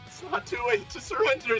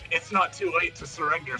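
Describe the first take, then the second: First: The line is delivered in a timid, unconvincing voice. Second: The line is delivered in a confident, commanding voice. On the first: This is how the character really comes across. "what it actually sounds like is" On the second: This is how the character wants to come across. "trying to sound confident"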